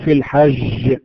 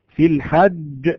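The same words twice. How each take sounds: First: The j is soft and close to sh. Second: The j is a hard, stopped sound. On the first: The speaker calls it wrong. "لا نقول في الحج" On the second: The speaker calls it right. "إذا أتى بهذه الصفة صحيحة قال في الحج"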